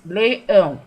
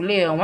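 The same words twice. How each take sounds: First: LEÃO in two clear, loud beats, le-ão; two syllables. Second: Said in the usual way. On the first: Shown as a demonstration. Teacher shows pupils a dissílaba, leão in two beats. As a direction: punch out both syllables of leão. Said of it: "duas sílabas". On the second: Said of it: "Coloco, escrevo leão aqui".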